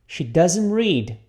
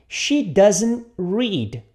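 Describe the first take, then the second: First: She doesn't read repeated, a bit slowly; slow model. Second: She doesn't read, drawn out word by word; very slow model. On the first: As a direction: model it steadily for repetition. (repetição modelo um pouco lenta) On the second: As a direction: stretch every word for the learner. (bem devagar, palavra por palavra) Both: Shown as a demonstration.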